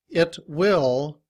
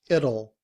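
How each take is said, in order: First: Will is said in full with its w. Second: Will is reduced to a short ul sound.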